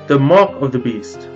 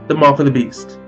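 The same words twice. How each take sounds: First: It is said a little slowly. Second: It is said at normal speed.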